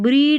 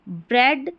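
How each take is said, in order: First: The vowel is a long 'ee' sound. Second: The vowel is a short 'e' sound. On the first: The speaker calls it wrong. "ऐसे नहीं बोल रहे हैं ई ए को ई पढ़िए" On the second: The speaker calls it right. "ई ए का ए sound आ रहा है"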